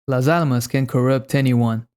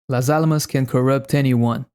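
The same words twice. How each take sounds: Both takes have the same delivery.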